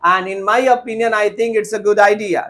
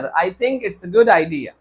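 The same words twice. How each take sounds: First: Slow faulty sentence; slow wrong example. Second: Very slow model sentence; slow corrected example. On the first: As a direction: read the redundant line slowly. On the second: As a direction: model the fix slowly. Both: Shown as a demonstration. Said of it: "No sir".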